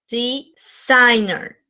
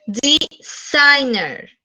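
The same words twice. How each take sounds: First: Designer said very slowly, SIGN stressed; slow stressed repeat. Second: DeSIGNer, slow, middle syllable stressed. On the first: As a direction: model designer slowly for the class. (designer lento, acento en SIGN) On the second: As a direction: stretch out deSIGNer, lean on SIGN. (acento en SIGN de designer) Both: Shown as a demonstration. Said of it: "en el medio".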